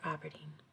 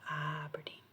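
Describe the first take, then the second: First: The first syllable carries no strong stress. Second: The first syllable carries strong stress. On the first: This is how Scottish people say it. "we don't put enunciation on the A" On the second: This is how an American says it. "but not Aberdeen"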